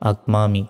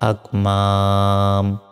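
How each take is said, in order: First: The word ends with a short i vowel. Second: The word ends on a bare m sound. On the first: The word is joined to what follows. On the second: The reader stops on this word.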